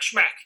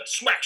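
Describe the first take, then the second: First: Smack snapped out high and sharp; a sudden high hit on smack; stressed smack. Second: Said in the usual way. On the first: Shown as a demonstration. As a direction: punch the word smack like a bite.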